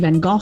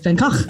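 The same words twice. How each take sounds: First: The name is said with a British pronunciation. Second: The name is said with a Dutch guttural sound. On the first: "In Britain, people tend to say" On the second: "but it's"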